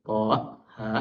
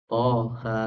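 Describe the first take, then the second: First: "toha" split slowly as "to', ha'"; with hamzah. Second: "toha" with both vowels open and joined; without hamzah. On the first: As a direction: stop each syllable of "toha" with a glottal catch. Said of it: "bukan toha". ("toha" dipisah, tiap suku diakhiri hamzah) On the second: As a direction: run "toha" together, no glottal stop. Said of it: "Kenapa kita bacanya". ("toha" disambung tanpa hamzah) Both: Shown as a demonstration.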